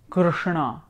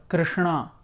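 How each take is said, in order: The two takes are said the same way.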